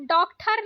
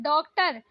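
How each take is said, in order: First: डॉक्टर said "dokthar"; aspirated th inside डॉक्टर; wrong pronunciation. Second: डॉक्टर said "doktar"; plain hard t inside डॉक्टर; correct pronunciation. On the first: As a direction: say डॉक्टर with a puff after k. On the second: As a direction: say डॉक्टर without a puff. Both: Shown as a demonstration. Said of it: "डॉक्टर नहीं".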